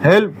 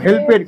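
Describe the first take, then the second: First: The ending is a short t sound, one syllable. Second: The ending is an extra syllable, help-ed. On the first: The speaker calls it right. "উচ্চারণটা কি হবে" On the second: The speaker calls it wrong. "আমি ছোটবেলায় বলতাম"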